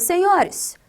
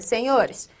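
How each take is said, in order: First: The word is said with strong, exclamatory force. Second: The word is said plainly, without extra force. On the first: An address given extra emphasis, like an exclamation. "dá mais ênfase" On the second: An ordinary address with a comma after it. "é diferente de eu dizer, senhores, vírgula"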